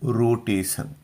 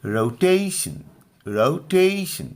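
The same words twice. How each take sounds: First: रोटेशन as roo-TE-san, long pure first vowel; रोटेशन with a plain "san" ending and no strong middle; common mispronunciation. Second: रोटेशन with a strong, raised टे; deliberate रोटेशन, punching the middle syllable; stress on middle syllable. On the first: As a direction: say रोटेशन evenly, Hindi-style, s instead of sh. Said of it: "जबकि हम लोग फिर पढ़ते हैं". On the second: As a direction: say रोटेशन as rou-TAY-shun, light first and last. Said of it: "बीच वाले पे जोर लगाकर". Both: Shown as a demonstration.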